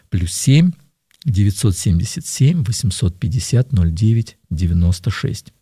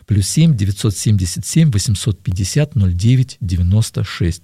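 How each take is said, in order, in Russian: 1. Номер произносят медленнее. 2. Номер произносят быстрее.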